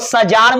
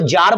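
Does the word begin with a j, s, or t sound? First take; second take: s; j. First: The word begins with an s sound. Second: The word begins with a j sound. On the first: The speaker calls it wrong. "इसको सजार मत बोलिएगा" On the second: The speaker calls it right. "इसको जार बोलते हैं"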